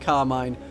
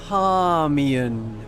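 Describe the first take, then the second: First: The name does not sound like calm plus Ian. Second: The name sounds like calm plus Ian. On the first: The speaker calls it wrong. "whose name I've just mis- mispronounced" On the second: The speaker calls it right. "We are calm, and we are someone called Ian"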